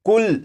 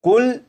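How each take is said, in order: First: The word stops on the final 'l' consonant. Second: The word stops on the final 'l' consonant.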